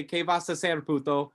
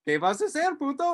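First: Coached phrase. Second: Innocent repeat. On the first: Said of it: "go up to that guy and say". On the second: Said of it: "I walk up to that guy and go". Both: Retold or imitated.

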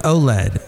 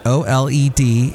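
First: "oled" said as oh-led; pronounced as a word. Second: "O L E D" as four separate letters. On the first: Host teaching the TV name, "oled" as one word. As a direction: say "oled" as two syllables, oh-led. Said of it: "It's pronounced oled". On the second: Host explaining a TV name, O L E D spelled out. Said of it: "that's how they pronounce it". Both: Shown as a demonstration.

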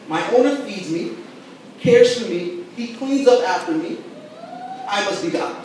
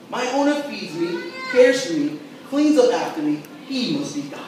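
First: Lightly voiced smug cat; a hint of a self-satisfied cat; cat's point of view. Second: Eager, grateful dog; dog's point of view. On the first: Pastor voicing a cat's theology for the church, mildly smug. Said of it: "A cat says". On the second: Retold or imitated. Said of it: "A dog goes".

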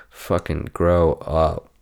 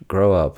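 First: Slow drawn-out scold; slow mock scold. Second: Said in the usual way. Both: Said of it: "I had to do it".

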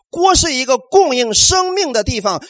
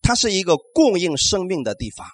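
First: 锅是一个供应生命的地方 said louder and slower, each word weighted; slow, emphatic restatement: 锅是一个供应生命的地方; emphatic repeat. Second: Said in the usual way. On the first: Shown as a demonstration. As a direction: drive the point home with slow, weighted words. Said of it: "repeated for emphasis".

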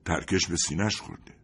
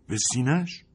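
First: Said in the usual way. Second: Shocked question. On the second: Acted. Sergeant hearing where the shrapnel struck, shocked question.

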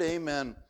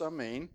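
First: Said in the usual way. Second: Amen said ah-MAYN, stress on the second syllable; amen with a soft first vowel and a long stressed second one; Hebrew pronunciation. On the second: Shown as a demonstration. Preacher showing how the Hebrew word was said, careful ah-MAYN. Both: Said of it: "it was pronounced amen".

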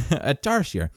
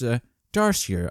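First: "tarsier" retried with a laugh, in an altered voice; unsure pronunciation. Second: Said in the usual way. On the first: Shown as a demonstration. Host retrying a word he can't pronounce, unsure. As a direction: have another go at "tarsier". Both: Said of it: "I'm not pronouncing that right".

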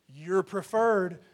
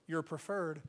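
First: "you're preferred" drawn out slowly and pressed home; slow, deliberate assurance on "you're preferred"; slow emphatic. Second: Said in the usual way. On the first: Shown as a demonstration. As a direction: let each word of "you're preferred" land slowly.

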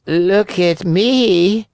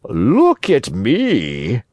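First: High, very slow cat voice; high, drawn-out storybook cat. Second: Very slow, drawn-out fox voice; slow, self-important sly fox. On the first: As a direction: stretch it out in a high feline whine. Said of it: "said the cat". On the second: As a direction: stretch each word slyly, near normal pitch. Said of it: "said the fox". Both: A narrator's reading.

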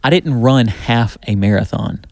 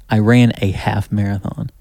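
First: "didn't" punched, phrase slowed; stress on didn't. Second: "ran" stressed as the correction. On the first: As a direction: lean hard on "didn't", slow and deliberate. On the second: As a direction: hit "ran" to set the record straight. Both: Shown as a demonstration.

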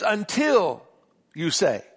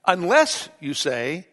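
First: "Until" pushed up and held; stress on until. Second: "Unless" leaned on, slowed; stress on unless. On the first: Pastor correcting the reading, stress on "Until". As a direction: punch "Until" as the right word. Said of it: "He says". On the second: Pastor showing the wrong reading, stress on "Unless". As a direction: hit "Unless" as the wrong word. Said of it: "He doesn't say". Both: Shown as a demonstration.

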